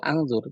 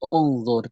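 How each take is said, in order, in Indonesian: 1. Kata ini diawali dengan vokal selain u. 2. Kata ini diawali dengan vokal u. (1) "tidak bisa menjadi" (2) "kita membacanya dengan u menjadi unzur"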